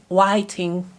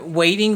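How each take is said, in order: First: The first vowel sounds like the vowel in 'white'. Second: The first vowel sounds like the vowel in 'wait'.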